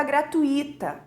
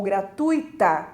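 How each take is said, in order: First: Gratuita stressed on the I, gra-tu-I-ta; common misplaced stress. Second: Gratuita stressed on TU, gra-TUI-ta; correct stress. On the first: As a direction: split "gratuita" into four syllables, beat on I. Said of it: "as pessoas normalmente dizem". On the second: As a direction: say "gratuita" with ui in one syllable, beat on U. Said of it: "a correta pronúncia seria". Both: Shown as a demonstration.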